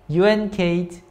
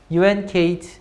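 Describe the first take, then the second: No difference in how they are said.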